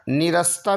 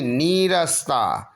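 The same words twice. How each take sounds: First: निरस्ता with a brief ni; short i. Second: नीरस्ता slow with a stretched nee; long ee. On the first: Teacher showing the error, निरस्ता with short ni. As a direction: clip ni in निरस्ता. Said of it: "में नहीं". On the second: Teacher giving the correction, नीरस्ता slow with long nee. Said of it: "बड़ी की मात्रा लगे". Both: Shown as a demonstration.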